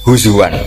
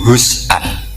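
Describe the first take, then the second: First: The word has a w sound in the middle. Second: The word has a glottal stop in the middle. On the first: "hamzah ditakhfif jadi wawu" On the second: "dari haza yahzau"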